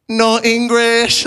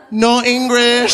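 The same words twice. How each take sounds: First: Slow, higher "No English"; playing the non-English grandson; higher, drawn-out fake refusal; mock deadpan. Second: High, slow "No English"; higher drawn-out denial; mock deadpan. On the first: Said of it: "I was forced to be like". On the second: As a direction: fake playing dumb. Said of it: "before saying".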